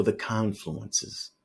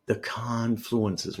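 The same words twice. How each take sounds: First: Said in the usual way. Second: "confluences" drawn out slowly, leaning on CON; hard stress on confluences. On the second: Real, not acted. Trader hammering home what he is looking for, "confluences" stressed hard. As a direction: stretch "confluences" out with heavy, slow emphasis. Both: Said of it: "why am I stressing that word so hard".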